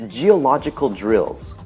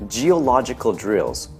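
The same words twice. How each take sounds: No difference in how they are said.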